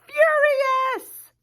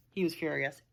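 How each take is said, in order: First: Furious, much higher and louder; big word. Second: Said in the usual way. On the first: Shown as a demonstration. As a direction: shout out furious as a huge word. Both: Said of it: "look at the size of that word".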